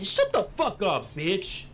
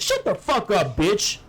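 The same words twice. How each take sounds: First: "Shut the fuck up, bitch" said slowly with a hard hit on "Shut"; slow spelled-out line. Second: Mock yell. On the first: Shown as a demonstration. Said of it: "You have to say". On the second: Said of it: "He'd be like, Hey".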